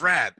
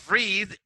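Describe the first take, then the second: First: The vowel is short, like in red. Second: The vowel is long, like in reed. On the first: It is the past tense form. "is red in pronunciation. In pronunciation, like the color red" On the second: It is the present tense form. "The past of read"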